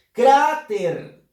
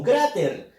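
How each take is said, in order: First: "Cráter" fuerte, alargando la "a"; acento en penúltima sílaba. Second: Said in the usual way. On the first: Shown as a demonstration. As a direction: estira y golpea "Crá" en "Cráter". ("Cráter" con la primera sílaba muy marcada) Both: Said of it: "la fuerza de voz está en la penúltima sílaba".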